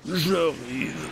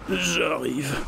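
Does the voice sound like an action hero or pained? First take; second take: action hero; pained. First: The voice sounds deep and tough like an action hero. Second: The voice sounds strained and pained. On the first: The character thinks he is a tough action hero. "Ou il se prend pour Schwarzenegger" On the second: The character seems to be suffering. "T'as l'impression qu'il souffre limite"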